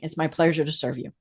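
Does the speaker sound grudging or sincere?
grudging. It sounds flat, grudging and unenthusiastic. The server is only doing a required job. "This is my job. I am here because my mom told me I had to get a job"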